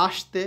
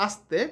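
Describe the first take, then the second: First: "আসতে" with an sh sound, ash-te; wrong pronunciation. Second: Said in the usual way. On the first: Shown as a demonstration. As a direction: say "আসতে" with sh in place of a dental s. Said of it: "তা কিন্তু বলিনি". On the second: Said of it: "দন্ত স এর উচ্চারণ হবে".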